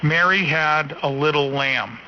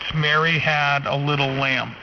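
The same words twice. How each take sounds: First: The low end is cut off at 200 hertz. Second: The low end extends down to 10 hertz. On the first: "It's rolled off at two hundred hertz" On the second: "And that's ten hertz"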